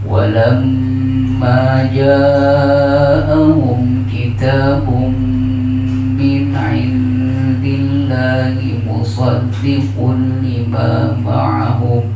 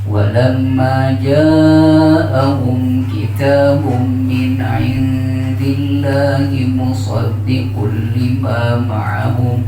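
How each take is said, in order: First: The lengthened vowel is held for two beats. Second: The lengthened vowel is cut short to one beat. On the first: The speaker calls it right. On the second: The speaker calls it wrong.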